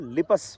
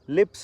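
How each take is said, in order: First: A vowel is inserted between the p and s. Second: The final p and s are said together.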